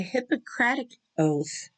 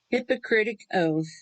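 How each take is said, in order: First: The word is said as Hippocratic. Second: The word is said as hypocritic. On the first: The speaker calls it right. "the Hippocratic oath is for a doctor" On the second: The speaker calls it wrong. "he didn't even say it right. The hypocritic is what he said"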